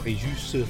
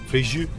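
First: The final S is sounded. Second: The final S is silent. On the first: The speaker calls it right. "you pronounce the S" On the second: The speaker calls it wrong. "We were saying in our family Fréjus for a long time"

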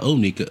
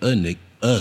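First: The name begins with an 'oh' vowel. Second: The name begins with an 'ah' vowel. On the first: The speaker calls it wrong. "Not Onika" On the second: The speaker calls it right. "Anika now"

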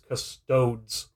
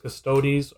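First: The ending sounds like toads. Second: The ending does not sound like toads.

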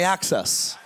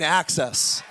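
First: The word is said plainly, without extra force. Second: The word is said forcefully, with strong conviction. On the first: "Say it with me" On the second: "Say it like you mean access"

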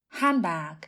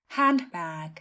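First: The d sound is dropped from the middle. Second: The d sound is pronounced in the middle. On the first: "d trong từ này thường được lược bỏ, không được phát âm" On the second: "Cách phát âm đầy đủ theo một số từ điển là handbag, có phát âm phụ âm d"

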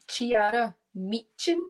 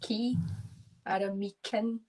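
First: The CH is said with a 'ch' sound. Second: The CH is said without a 'ch' sound. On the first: The speaker calls it wrong. "Usually I get like Chiara Meechan" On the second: The speaker calls it right. "you don't pronounce the CH as the ch, it's Chiara Meechan"

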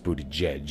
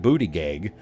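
First: The name ends with a soft 'judge' sound. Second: The name ends with a hard 'gig' sound. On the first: The name follows its owner's own pronunciation. "I know it's Buttigieg is the way he pronounces it" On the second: The name is mocked for comic effect. "I say booty gig because it sounds funny"

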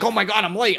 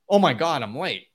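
First: It sounds panicked and rushed. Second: It sounds calm and centered.

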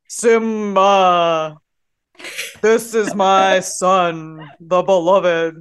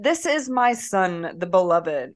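First: It is said in a deep Mufasa voice. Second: It is read in a plain reading voice.

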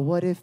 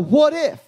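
First: It is said weakly and timidly, without emphasis. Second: It is said boldly and strongly, with heavy emphasis. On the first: Worrying that something bad might happen. The speaker calls it wrong. "Right now, your what if is all lowercase" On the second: Expecting that something good might happen. The speaker calls it right. "Change your tone. Italicize what if"

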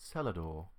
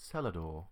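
First: It is said in a British accent. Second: The same.

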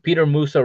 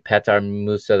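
First: The first name sounds like English Peter. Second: The first name ends in an 'ar' sound. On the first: The speaker calls it wrong. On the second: The speaker calls it right.

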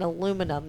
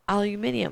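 First: The word has no extra syllable before the ending. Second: The word has an extra syllable before the ending. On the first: This is how people in the United States say it. "I think you mean aluminum" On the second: This is how people outside the United States say it. "And they're like"

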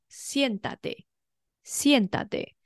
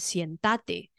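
First: The stress is on the first syllable. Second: The stress is on the second syllable. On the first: The speaker calls it right. "do 叫人家坐下是念作现哒得" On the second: The speaker calls it wrong. "它重音就会落在倒数第二音节，就会是在这个哒"

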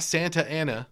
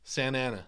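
First: The T in Santa is clearly pronounced. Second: The T in Santa is dropped. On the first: "Not Santa Ana" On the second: "they don't pronounce the T"

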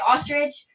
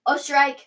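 First: The name ends with an 'itch' sound. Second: The name begins with 'os' and ends 'strike'. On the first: "everybody would say my last name wrong" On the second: "everybody would say my last name wrong"

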